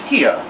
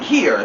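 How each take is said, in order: First: It is said in a Southern accent. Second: It is said in a standard accent.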